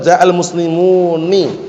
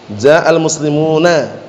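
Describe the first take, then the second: First: The final nun is followed by an 'i' vowel. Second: The final nun is followed by an 'a' vowel. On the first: Only a few speakers use this form. "Yang dengan mengkasrahnya dia mengucapkannya" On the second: This is the common, well-known usage. "Difathah enggak nunnya?"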